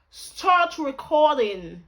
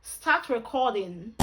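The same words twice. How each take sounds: First: Slow, loud, higher put-on British accent. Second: Said in the usual way. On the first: Shown as a demonstration. Commanding the camera to record, British accent. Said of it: "When I use British accent". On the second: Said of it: "When I use my Nigerian accent".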